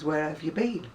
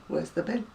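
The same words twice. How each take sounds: First: Said in the usual way. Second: BIN for "been", with short i; local dialect. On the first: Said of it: "to me means". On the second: Shown as a demonstration. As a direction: say "Where's the bin?" as broad dialect. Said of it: "it's just my dialect".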